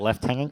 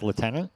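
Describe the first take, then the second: First: It is pronounced the British way. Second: It is pronounced the American way.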